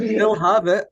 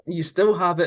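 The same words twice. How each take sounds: First: Mock cheering. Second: Said in the usual way. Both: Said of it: "Like, you still have it".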